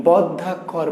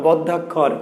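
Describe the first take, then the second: Both takes have the same delivery.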